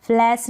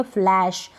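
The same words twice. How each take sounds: First: फ्लैश ending in s, "flass"; wrong pronunciation. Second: Said in the usual way. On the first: Shown as a demonstration. Teacher shows a wrong reading, फ्लैश said as फ्लैस. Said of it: "गलत pronunciation हो जाएगा". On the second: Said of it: "उसको कहेंगे फ्लैश".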